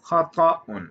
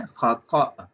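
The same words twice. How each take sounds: First: ख़ताउन with the final -un fully sounded; Arabic -un ending. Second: ख़ता ending on an open long aa; ending dropped. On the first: Teacher giving the first Arabic form, ख़ताउन with its -un ending. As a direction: pronounce ख़ताउन in full, ending in -un. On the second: Teacher offering the alternative form, ख़ता without the -un. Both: Shown as a demonstration. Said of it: "या फिर आप कह सकते हैं".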